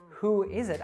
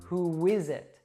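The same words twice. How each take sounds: First: Who and is are said separately, without a w. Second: Who links into is with a w sound. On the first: The speaker calls it wrong. "I wouldn't say" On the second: The speaker calls it right. "I would say"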